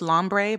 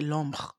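First: The name is said with an English pronunciation. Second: The name is said with a French pronunciation. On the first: "Maybe it's Lombre" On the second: "but I say Lombre"

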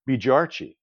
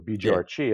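First: The name is said with an English pronunciation. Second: The name is said with a Farsi pronunciation. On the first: "my real last name is" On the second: "as you say it in Farsi"

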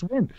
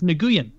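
First: The name is said as one syllable, like 'win'. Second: The name is said as two syllables, like 'new-yen'. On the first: The speaker calls it right. "I did not know that it was pronounced Win" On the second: The speaker calls it wrong. "I thought it was Nguyen"

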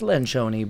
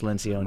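First: The name has an Italian-style pronunciation. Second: The name has an Americanized pronunciation. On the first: This is the name's original pronunciation. "They get all worked up and it's Lencioni" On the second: This is how the owner of the name says it. "but I'm super American, so it's Lencioni"

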